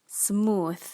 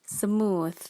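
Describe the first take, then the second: No difference in how they are said.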